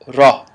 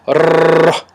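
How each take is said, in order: First: The r has only a slight roll. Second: The r is rolled long and heavily. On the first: The speaker calls it right. "There's a slight roll, but nothing major" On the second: The speaker calls it wrong. "with a rolling of the tongue, very heavy"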